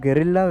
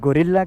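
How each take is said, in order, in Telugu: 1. మొదటి syllable 'geh' లా వినిపిస్తుంది. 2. మొదటి సిలబుల్ 'go' లా వినిపిస్తుంది. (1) "సో ప్రొనౌన్సియేషన్ కొద్దిగా డిఫరెంట్గా ఉంటుంది" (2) "గొరిల్లా కాదు"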